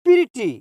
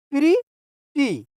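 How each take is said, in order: First: Said in the usual way. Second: pretty slowly broken in two, pause between syllables; two separate, drawn-out beats in pretty; split into syllables. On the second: Shown as a demonstration. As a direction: break pretty into "pree", pause, "tee". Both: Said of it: "टुकड़ा करके बोलेंगे".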